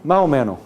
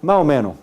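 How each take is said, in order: First: The s sounds like a breathy h. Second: The s sounds like a breathy h.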